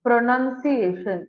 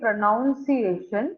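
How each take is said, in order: First: The second syllable sounds like 'nun'. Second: The second syllable sounds like 'noun'. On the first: The speaker calls it right. "இந்த இடத்துல none தான் இருக்கு" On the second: The speaker calls it wrong. "it is not actually pronunciation"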